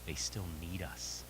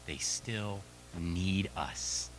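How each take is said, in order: First: "need" leaned on, slow and soft; stress on need. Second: "need" drawn out very slowly, falling; slow emphatic. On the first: Coach tells parents gently, stressing "need". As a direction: linger on the word "need". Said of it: "here's the beautiful part". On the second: Coach repeats to parents, very slow stress on "need". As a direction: stretch "need" slowly and tenderly. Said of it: "Even when they have full ownership". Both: Shown as a demonstration.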